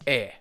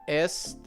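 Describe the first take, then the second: First: The word is said as a bare vowel. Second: The word ends with an audible t sound. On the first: The speaker calls it right. "It's e" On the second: The speaker calls it wrong. "No, it's not est, right?"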